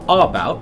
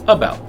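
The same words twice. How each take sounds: First: The first vowel is a full vowel. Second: The first vowel is a weak central schwa. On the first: The speaker calls it wrong. "It's not about" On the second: The speaker calls it right. "that first vowel sound is just a sound in the middle of the mouth"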